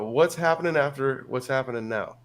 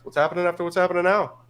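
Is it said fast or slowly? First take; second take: slowly; fast. First: It is said at a normal, slower pace. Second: It is said fast, like a Newfoundlander.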